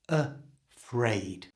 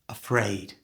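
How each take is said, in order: First: It is said slowly, with exaggerated clarity. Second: It is said quickly, at natural speed. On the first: "pronouncing it far more clearly, like this" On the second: "and at normal speed"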